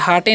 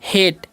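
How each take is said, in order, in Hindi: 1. इसे दो अक्षरों में बोला जाता है, 'hah-tay'। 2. इसे एक अक्षर में बोला जाता है, 'hayt'। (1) "इसे हाटे नहीं पढ़ना है" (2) "इसे हम क्या पढ़ते हैं हेट"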